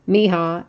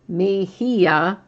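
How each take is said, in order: First: The name is said with two syllables. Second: The name is said with three syllables. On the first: The speaker calls it wrong. "every time I say it wrong" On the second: The speaker calls it right. "it's supposed to be Mejia"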